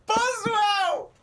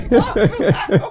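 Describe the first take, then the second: First: Boswell! shrieked much higher through laughter; high shrieking cry of Boswell; shrieked mockery. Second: Boswell! blurted out loud through laughter; loud laughing repeat of Boswell; laughing mockery. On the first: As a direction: scream Boswell back in disbelief. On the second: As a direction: laugh it out, mocking the word Boswell. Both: Real, not acted. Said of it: "you said Boswell".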